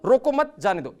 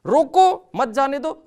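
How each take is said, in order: First: रोको मत run together, then जाने दो apart; louder joined रोको मत, short break before जाने दो; pause after मत. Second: रोको shouted very high, then मत जाने दो as its own phrase; loud break after रोको, keeping मत with जाने दो; pause after रोको. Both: Shown as a demonstration. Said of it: "एक कॉमा का इम्पैक्ट".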